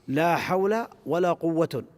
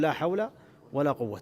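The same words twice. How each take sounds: First: Only the second noun ends with -un. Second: Neither noun ends with an -n sound. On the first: The particle governs only the first noun. "بعمل الأول وإهمال الثاني" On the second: The particle governs both nouns. "فيجوز لك أن تعملها"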